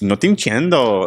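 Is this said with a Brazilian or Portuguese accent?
Brazilian. It is said in a Brazilian accent, rising and falling. "if you're in Brazil ... just that little like up and down"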